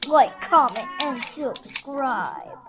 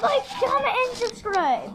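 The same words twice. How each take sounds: First: Slow villain voice. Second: Squealing cartoon voice; high shouted silly voice. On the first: Acted. Repeat in slow deep villain voice. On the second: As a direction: shriek it fast and high.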